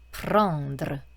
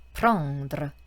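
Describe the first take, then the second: No difference in how they are said.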